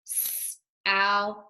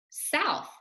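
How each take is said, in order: First: South drawn out slowly, the sounds stretched apart; stretched-out blending. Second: Said in the usual way. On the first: Shown as a demonstration. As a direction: slowly stretch out South before saying it whole. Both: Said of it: "Let's read this word together".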